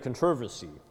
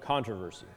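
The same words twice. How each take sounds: First: The word is stressed the British way. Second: The word is stressed the American way. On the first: "maybe in England they do that" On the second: "as opposed to"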